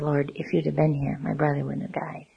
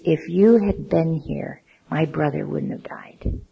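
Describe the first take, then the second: First: It is said in a worshipful, reverent tone. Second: It is said in an accusing tone.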